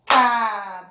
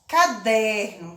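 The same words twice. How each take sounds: First: "Caderno" in three spaced beats, ca - der - no; split into syllables. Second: Said in the usual way. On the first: Shown as a demonstration. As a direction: pause after each syllable of "Caderno". ("Caderno" separado em sílabas: ca - der - no) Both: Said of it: "Vamos separar?".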